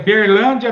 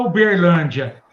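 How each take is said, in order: First: The opening vowel 'U' is dropped. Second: The opening vowel 'U' is pronounced. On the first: This is how people from Minas Gerais say it. "Aí é Berlândia" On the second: This is the standard form locals do not use. "Minas Gerais não fala que é, não fala Uberlândia"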